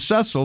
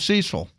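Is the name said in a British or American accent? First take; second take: British; American. First: The name is said the British way. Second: The name is said the American way.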